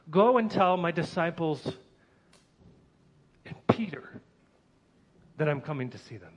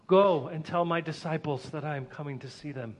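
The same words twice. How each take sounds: First: Pause, then whisper and Peter; and Peter set apart. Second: Said in the usual way. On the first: Acted. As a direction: slip in a hushed and Peter after a pause. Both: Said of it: "Actually, he said".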